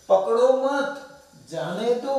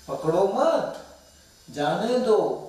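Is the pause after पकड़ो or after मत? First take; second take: after मत; after मत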